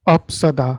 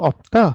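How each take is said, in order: First: Both final consonants are pronounced. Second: Only one final consonant is pronounced. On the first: "वो दोनों इसको final consonant को प्रोनाउंस कर देंगे।" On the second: "रूल तो पढ़ा लेकिन ठीक से नहीं पढ़ा"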